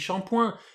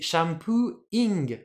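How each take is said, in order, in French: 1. Il finit par un son nasal français 'poing'. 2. Il finit par un son anglais 'poo-ing'. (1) "on dit shampoing, mais shampoing, ça se prononce pas shampoing" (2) "c'est pas le point, c'est shampooing"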